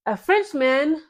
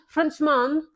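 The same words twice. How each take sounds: First: Said in the usual way. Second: Badly faked French accent on "Frenchman"; mock French pronunciation of "Frenchman"; terrible French accent. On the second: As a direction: attempt "Frenchman" with French vowels, poorly. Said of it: "that's a terrible accent".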